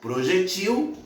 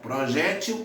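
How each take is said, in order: First: The stress is on the last syllable. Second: The stress is on the second-to-last syllable. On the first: "se elas forem pronunciadas como oxítonas" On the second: "Se forem pronunciadas como paroxítonas"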